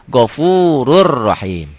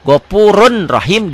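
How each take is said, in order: First: "Ghafurur Rahim" on a long rolled R; N merged into R. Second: "Ghafurun" with a distinct N before "Rahim"; written form with N. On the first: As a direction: drop the N and double the R of "Ghafurur Rahim". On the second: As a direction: sound the N at the end of "Ghafurun". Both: Shown as a demonstration. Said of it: "dibacanya jadi".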